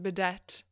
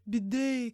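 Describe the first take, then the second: First: The final T sound is clearly pronounced. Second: The final T sound is silent. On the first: The speaker calls it wrong. "I thought it was a bidet" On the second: The speaker calls it right. "you don't pronounce the T"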